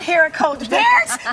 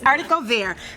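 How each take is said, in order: First: It is pronounced the common anglicized way. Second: It is pronounced the French way. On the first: The speaker calls it wrong. "It's not Haricot vert, but that's how most of us pronounce it" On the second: The speaker calls it right. "It's Haricot vert"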